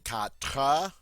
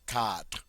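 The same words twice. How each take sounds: First: The final E is voiced as an extra syllable. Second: It is one syllable ending on a light R. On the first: The speaker calls it wrong. "notice we do not say quatre. We in no way emphasize that final E" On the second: The speaker calls it right. "This is a one-syllable word that ends with the R sound"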